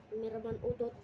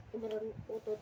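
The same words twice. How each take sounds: The two takes are said the same way.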